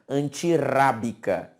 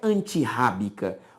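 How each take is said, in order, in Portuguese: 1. O R do meio é leve, batido (tepe). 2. O R do meio é forte, gutural. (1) "um R em meio de palavra sozinho, ele tem som de R" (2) "não é antirrábica"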